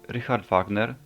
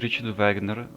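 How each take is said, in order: First: Wagner is pronounced in a German-like way. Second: Wagner is pronounced in an English-like way.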